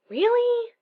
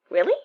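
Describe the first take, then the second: First: It sounds suspicious and doubtful. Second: It sounds genuinely surprised.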